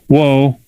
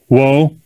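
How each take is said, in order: First: It sounds soft and asking, like a request. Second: It sounds soft and asking, like a request.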